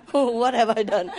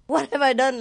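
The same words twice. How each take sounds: First: Slow, laughing What have I done; laughing dog voice. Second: Voicing the dog, What have I done, lightly higher and puzzled; dog's puzzled look. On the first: Retold or imitated. Voicing the shocked dog while laughing, slow. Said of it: "Who was looking at me?". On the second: Shocked dog staring at its owner, mildly puzzled voice. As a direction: give the dog a bewildered little question. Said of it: "he was looking at me like this".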